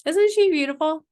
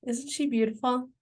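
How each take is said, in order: First: "Isn't SHE beautiful?" higher and louder with delight; excited. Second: Said in the usual way. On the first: Real, not acted. Founder showing off the leopard to viewers, gushing. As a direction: gush over "she" with a bright lift. Repeats admiring question louder.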